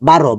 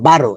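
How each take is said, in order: Both takes have the same delivery.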